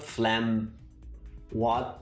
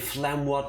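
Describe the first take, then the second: First: The two words are said separately, apart. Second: The two words are run together smoothly. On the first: The speaker calls it wrong. "not phlegm what" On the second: The speaker calls it right. "You have to say phlegm what together"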